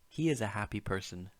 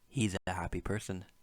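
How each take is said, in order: First: The words 'he is' are said in full. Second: The words 'he is' are contracted together.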